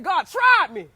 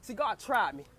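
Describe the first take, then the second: First: Louder, punched repeat; emphatic. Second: Said in the usual way. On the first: Real, not acted. Telling listeners God tested her, emphatic and louder. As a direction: hit it hard the second time. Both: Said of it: "I said, God tried me".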